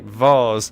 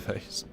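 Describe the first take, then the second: First: The word is said with a British pronunciation. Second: The word is said with an American pronunciation. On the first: The speaker calls it right. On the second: The speaker calls it wrong.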